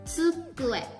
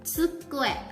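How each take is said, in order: The two takes are said the same way.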